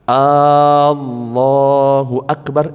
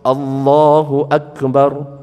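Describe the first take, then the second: First: The first vowel of Akbar is lengthened. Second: The first vowel of Akbar is short. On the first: It asks whether God is the greatest. The speaker calls it wrong. "A-nya dipanjangkan" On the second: God is the greatest. The speaker calls it right. "artinya Allah Maha Besar"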